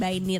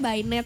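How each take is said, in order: First: The last syllable has an 'ee' vowel, 'nit'. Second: The last syllable has an 'eh' vowel, 'net'. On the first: The speaker calls it wrong. "Jadi bukan Bainit" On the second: The speaker calls it right. "dibacanya Bainet sebenarnya"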